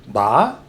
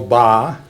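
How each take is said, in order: First: The pitch goes upward. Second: The pitch stays level and flat. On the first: It means embrace. "upward tone" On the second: It means the number three. "said very flat"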